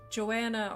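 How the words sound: The name is said with an English pronunciation. "English versus Dutch pronunciations"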